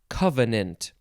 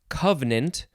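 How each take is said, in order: First: The word is said with three syllables. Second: The word is said with two syllables. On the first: "three syllables" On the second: "Two syllables"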